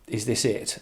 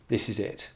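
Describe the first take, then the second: First: Mildly questioning, slightly lifted. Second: Stated with a falling end; asserting. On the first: Explaining that one of the couple is asking, questioning. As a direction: put it as a simple question. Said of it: "one of them is asking". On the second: Explaining that the other one is saying it, asserting. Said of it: "the other is saying". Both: Acted.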